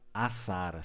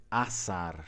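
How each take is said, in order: Both takes have the same delivery.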